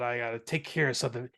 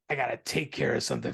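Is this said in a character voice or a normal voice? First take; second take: normal voice; character voice. First: It is said in the speaker's normal voice. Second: It is said in an imitated character voice.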